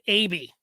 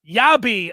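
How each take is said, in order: First: The name begins with a plain 'ay' vowel. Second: The name begins with a 'ya' sound. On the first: The speaker calls it wrong. "I was calling him A B" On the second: The speaker calls it right. "clearly phonetically spelled out in the guide as Yabi"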